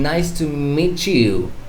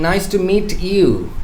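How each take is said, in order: First: The t and y blend into a ch sound. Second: The t and y sounds are kept separate. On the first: The speaker calls it right. "I'm saying ... you blend these two words" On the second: The speaker calls it wrong. "I'm not saying"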